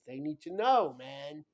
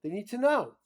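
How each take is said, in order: First: Insistent. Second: Much higher and louder, They need to know yelled; shouting insistence. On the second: Father shouting that his children need to know. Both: Real, not acted.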